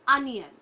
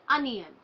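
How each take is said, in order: The two takes are said the same way.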